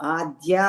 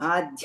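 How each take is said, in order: First: The d sound is unaspirated, without breath. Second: The d sound is aspirated, with breath. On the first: The speaker calls it right. "దాకి ఒత్తు లేదు" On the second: The speaker calls it wrong. "ఆధ్య కాదు"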